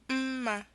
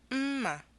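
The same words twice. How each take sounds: First: A high tone is followed by a mid tone. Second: A high tone is followed by a low tone. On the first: It means good. "is a high tone and a mid-tone" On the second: It means knife. "is a high tone and a low tone"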